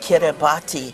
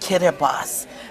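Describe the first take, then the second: First: The t is said as a t sound. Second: The t is said as an s sound. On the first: The speaker calls it wrong. "do not say Kiribati" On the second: The speaker calls it right. "Their T is pronounced like an S"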